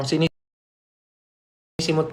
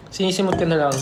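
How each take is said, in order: First: Very slow and drawn-out; slow drawl. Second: Said in the usual way. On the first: Shown as a demonstration. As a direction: stretch "sinisimot" out slowly. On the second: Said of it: "Oh, sinisimot ko na lang".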